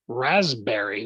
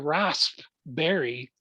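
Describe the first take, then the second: First: The p is dropped and it sounds like z. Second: The p sound is clearly pronounced. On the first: "like two Z's in it" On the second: "with that emphasis on the p"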